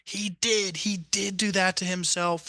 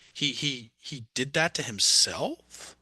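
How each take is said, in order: First: It is a calm statement falling at the end. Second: It is stuttered and rises like a question.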